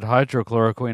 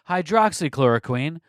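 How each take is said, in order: First: It is said without the 'ks' sound after 'hydro'. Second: It is said with the 'ks' sound after 'hydro'. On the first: The speaker calls it wrong. "I know I pronounced it hydrochloroquine earlier" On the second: The speaker calls it right. "We're going to now pronounce it correctly"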